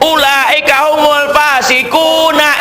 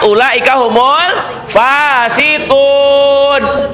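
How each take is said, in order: First: The last word ends with an added a vowel. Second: The last word ends on a bare n. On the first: The reading continues into the next words. The speaker calls it wrong. "itu yang salah" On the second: The reading stops here. The speaker calls it right.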